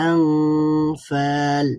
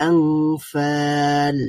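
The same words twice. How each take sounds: No difference in how they are said.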